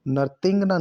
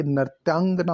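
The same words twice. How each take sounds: First: नर्तंगना as "nar-teng-naa"; e sound after t in नर्तंगना; wrong pronunciation. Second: नर्त्यांगना with "tyaan"; correct pronunciation. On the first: Teacher showing the error, नर्तंगना as "narteng-naa". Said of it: "नहीं होता". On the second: Teacher correcting the word, नर्त्यांगना with tyaa. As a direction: say नर्त्यांगना as "nar-tyaang-naa". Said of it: "या आएगा". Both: Shown as a demonstration.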